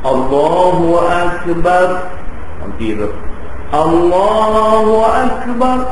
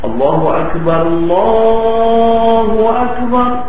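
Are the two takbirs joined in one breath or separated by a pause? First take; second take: separated; one breath. First: A clear pause separates the two phrases. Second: Both phrases run together in one breath. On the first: The speaker calls it wrong. "Dia tak mau kita pergi bank" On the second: The speaker calls it right. "Dua tu satu nafas"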